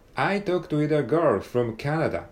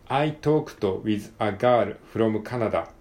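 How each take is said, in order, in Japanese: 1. ネイティブに近い英語のアクセントで読まれています。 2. 強い日本語なまりで読まれています。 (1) "なるべくお手本に近い読み方でちょっと読んでみますね" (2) "日本語、英語っぽく、あえてちょっと、わざとらしくやってみました"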